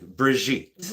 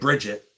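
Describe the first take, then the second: First: The name is said in a fancy, refined way. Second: The name is said in a plain, ordinary way. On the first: The speaker calls it right. "Very classy, like Brigitte" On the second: The speaker calls it wrong. "not like Bridget"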